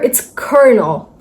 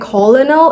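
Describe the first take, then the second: First: It is sounded with an R in the middle. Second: It is sounded as spelled, with no R. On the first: The speaker calls it right. "nowhere has R, but we're still pronouncing" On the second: The speaker calls it wrong. "people usually say"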